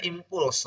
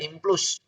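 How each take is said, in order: First: Impuls said i-m-p-u-l-s, u before the l; correct impuls. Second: Impuls said as implus, the l moved before the u; mock the common mistake, impuls as im-plus; wrong way of saying impuls. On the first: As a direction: say impuls the right way, im-PULS. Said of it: "Bacanya impuls". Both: Shown as a demonstration.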